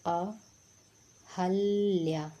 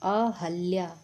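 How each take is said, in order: First: अहल्या stretched out, each syllable held; very slow dictation. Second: Said in the usual way. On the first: Shown as a demonstration. Teacher giving the right answer, slowly spelling अहल्या. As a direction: draw out अहल्या so students hear it. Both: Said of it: "सही उत्तर क्या है".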